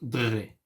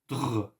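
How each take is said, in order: First: A vowel sound follows the final r. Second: No vowel sound follows the final r. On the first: The speaker calls it wrong. "here it's not dre" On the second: The speaker calls it right. "It's dr. I do not pronounce the end"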